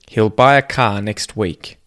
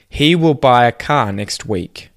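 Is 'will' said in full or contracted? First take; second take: contracted; full. First: 'Will' is contracted onto the word before it. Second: 'Will' is said in full as its own word. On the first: "say the contracted form" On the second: "the first sentence"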